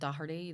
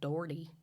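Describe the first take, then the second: First: The name is said with an Irish pronunciation. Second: The name is said with an American pronunciation. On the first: "instead of Doherty" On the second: "they'll go Doherty"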